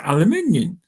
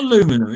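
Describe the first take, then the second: First: The word is said with five syllables. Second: The word is said with four syllables. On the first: This is how the speaker's own side says it. The speaker calls it right. "It's aluminium" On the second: This is how Americans say it. The speaker calls it wrong. "but it's not aluminum"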